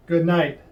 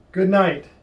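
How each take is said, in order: Both takes have the same delivery.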